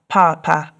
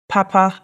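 First: The first syllable is high, the second low. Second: Both syllables are said on a high tone. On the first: It means dad. "which is a high tone and a low tone" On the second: It means good. "That has two high tones"

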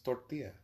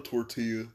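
First: It is said with a Spanish pronunciation. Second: It is said with an American English pronunciation. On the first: The speaker calls it right. "It's tortilla" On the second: The speaker calls it wrong. "that's what an American would say"

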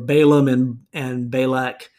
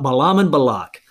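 First: The names are pronounced the usual English way. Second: The names are pronounced in a non-English way.

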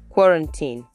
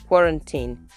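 First: The stress falls on the first syllable. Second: The same.

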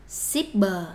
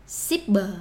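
The two takes are said the same way.

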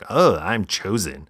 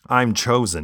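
First: It is said with a smug, superior tone. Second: It is said plainly, without any attitude.

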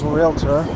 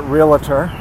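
First: No extra vowel is added in the middle. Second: An extra vowel is added in the middle. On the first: The speaker calls it right. "but it's realtor" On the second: The speaker calls it wrong. "Some people pronounce it realtor, like nuclear"

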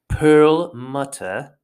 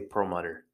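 First: The middle consonant is a clear T sound. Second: The middle consonant is a D sound. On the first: This is how the other speaker would say it. "if I was you, I would say Perlmutter" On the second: This is how the speaker's own accent says it. "we pronounce the TTs as D, and we always pronounce our R's"

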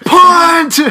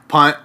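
First: The word is screamed loudly. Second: The word is said at normal volume.

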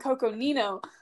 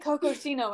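First: The third syllable begins with an N sound. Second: The third syllable begins with an S sound. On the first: The speaker calls it right. "I mean Coconino" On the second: The speaker calls it wrong. "I would say Cocosino"

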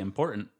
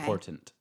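First: The sounds are relaxed, with the t softened. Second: Every sound, including the t, is carefully pronounced.

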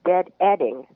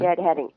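First: The h sound in the middle is dropped. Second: The h sound in the middle is pronounced.

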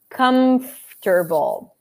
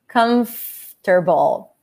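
First: The M is made with both lips closed. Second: The M is made with teeth on the lip.

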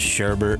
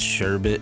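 First: The second syllable has an r sound. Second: The second syllable has no r sound. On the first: The speaker calls it wrong. "you don't pronounce it Sherbert" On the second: The speaker calls it right. "it's Sherbet"

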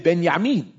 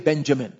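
First: The second syllable starts with a 'y' sound. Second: The second syllable starts with a 'j' sound. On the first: This is the form the name takes in the original language. The speaker calls it right. "we would say Benyamin" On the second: This is the common English form of the name. The speaker calls it wrong. "We wouldn't say Benjamin"

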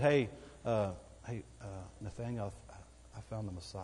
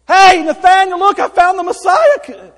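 First: It sounds hesitant, with halting fillers. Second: It sounds excited and eager, without hesitation.

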